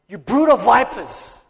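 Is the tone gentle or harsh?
harsh. It is said harshly and angrily.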